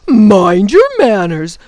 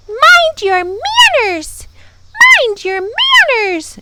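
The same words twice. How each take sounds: First: Loud, slow jeering mimicry; mocking gaboon. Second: Very high, drawn-out bird screech; angry scream. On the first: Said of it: "rolled on to the ground in delight". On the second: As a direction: screech the scolding high and loud. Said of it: "she screamed". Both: A narrator's reading.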